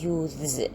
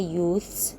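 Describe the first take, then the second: First: The th before the s is voiced. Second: The th before the s is voiceless. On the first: "by changing the th into the, then we pronounce the word as youths" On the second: "only by adding the s plural without changing the th into another sound"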